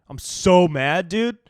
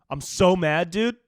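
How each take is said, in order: No difference in how they are said.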